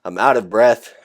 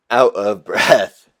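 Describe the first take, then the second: First: Said in the usual way. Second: Slow, laughing through the words; laughing repeat. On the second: Real, not acted. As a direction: drag it out with a laugh.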